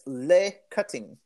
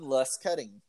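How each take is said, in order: First: The name is said in a put-on British accent. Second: The name is said in a plain American accent.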